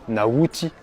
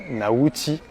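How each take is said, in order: Both takes have the same delivery.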